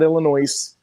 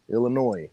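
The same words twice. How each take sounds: First: The final s is pronounced aloud. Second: The final s is not pronounced. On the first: The speaker calls it wrong. "Not Illinois" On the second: The speaker calls it right. "The S is silent"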